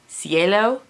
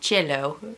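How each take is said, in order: First: The name is pronounced the Spanish way. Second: The name is pronounced the Italian way. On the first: "for Spanish" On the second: "for Italian"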